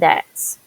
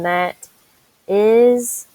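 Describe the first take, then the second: First: It is contracted into one syllable. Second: It is said as two full words. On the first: "to that's" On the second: "from that is"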